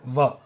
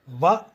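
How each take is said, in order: First: The syllable begins with a lip-teeth V sound. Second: The syllable begins with a lip-teeth V sound.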